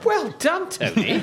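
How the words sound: It sounds surprised.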